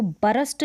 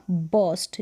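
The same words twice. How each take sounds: First: बरस्ट in two syllables with a sounded r; wrong BURST pronunciation. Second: बर्स्ट as one syllable, r barely sounded; correct BURST pronunciation. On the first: Teacher warning learners how not to read it, wrong two-syllable बरस्ट. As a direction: say बरस्ट as "ba-rast". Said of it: "इसको बरस्ट नहीं पढ़ेंगे". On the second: Teacher giving learners the right reading, one-syllable बर्स्ट. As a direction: say बर्स्ट as "bust" with a neutral vowel. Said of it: "इसका उच्चारण हो जाएगा बर्स्ट". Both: Shown as a demonstration.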